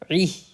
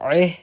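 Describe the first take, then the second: First: The vowel is a clear 'i' sound. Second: The vowel is a majhul 'e' sound. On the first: The speaker calls it right. "क्या पढ़ना है?" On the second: The speaker calls it wrong. "इसको आपने मजहूल नहीं पढ़ना है, एह नहीं पढ़ना है"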